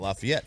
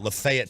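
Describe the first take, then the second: First: It uses the usual standard pronunciation. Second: It uses the local Tennessee pronunciation. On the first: "not Lafayette" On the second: "They call it uh, Lafayette, Tennessee"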